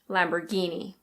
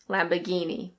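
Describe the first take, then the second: First: It is said in an American accent, r pronounced. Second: It is said in a British accent, r silent. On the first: "In American English, the R is pronounced" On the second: "In British English, we say Lamborghini"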